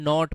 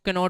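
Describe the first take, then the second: First: The word begins directly with an n sound. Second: A k sound is pronounced before the n. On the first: The speaker calls it right. "इसको बेटा हम नॉट बोलते हैं" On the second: The speaker calls it wrong. "अरे नहीं"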